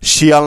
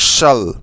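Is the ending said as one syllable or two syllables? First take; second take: two syllables; one syllable. First: The ending is said as two syllables, shiyal. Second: The ending is said as one syllable, shal. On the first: The speaker calls it wrong. "না কিন্তু" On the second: The speaker calls it right. "উচ্চারণটা ভালো করে লক্ষ্য করো"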